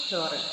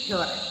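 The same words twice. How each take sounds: The two takes are said the same way.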